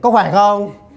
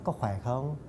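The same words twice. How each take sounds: First: It is said loudly, projected as on stage. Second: It is said softly, at close-talking volume. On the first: The voice must carry across a theatre. The speaker calls it wrong. "I don't say" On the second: The listener is very close, as on film. The speaker calls it right. "like you're very close to me"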